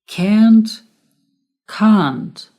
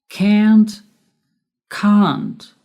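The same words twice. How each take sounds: Both takes have the same delivery.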